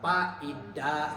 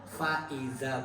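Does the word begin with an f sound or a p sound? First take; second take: p sound; f sound. First: The word begins with a p sound. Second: The word begins with an f sound. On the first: The speaker calls it wrong. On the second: The speaker calls it right. "tolonglah pakai fa"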